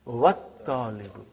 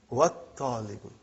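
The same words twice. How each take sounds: The two takes are said the same way.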